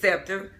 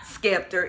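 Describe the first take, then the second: First: The word begins with a soft S sound. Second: The word begins with a hard SK sound. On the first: The speaker calls it right. "it's Scepter" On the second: The speaker calls it wrong. "It's not Skeptor"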